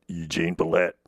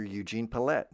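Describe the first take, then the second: First: Low, forced character voice; Eugene Pallette. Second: Said in the usual way. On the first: Shown as a demonstration. Voice teacher reaching for that low, low character voice. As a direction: push down into a low register. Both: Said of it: "It's hard to get that low".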